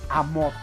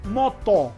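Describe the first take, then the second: First: An extra a sound comes before the word. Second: The word starts directly with the m sound. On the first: The speaker calls it wrong. "y no a moto" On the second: The speaker calls it right. "Lo correcto es decir simplemente moto"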